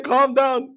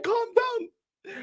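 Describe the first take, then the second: First: Said in the usual way. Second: "Calm down." said higher and softer, mock soothing; a teasing high "Calm down.". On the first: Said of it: "Man saying". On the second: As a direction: imitate a man pleading "Calm down." in a raised voice. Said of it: "A man saying".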